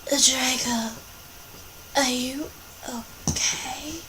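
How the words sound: It is said in a gothic voice.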